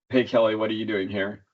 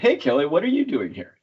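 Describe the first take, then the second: First: The question is said in a flat voice. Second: The question is said in a curious tone. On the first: The speaker calls it wrong. "in a very flat voice" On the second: The speaker calls it right. "more like how you would ask a question, like a curious question"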